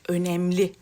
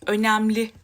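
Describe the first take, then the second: First: The e vowel is said closed. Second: The e vowel is said open. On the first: The speaker calls it right. "Sanırım bak o E'ler kapanmış" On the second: The speaker calls it wrong. "Açık E ile söylüyordum. Böyle önemli der gibi"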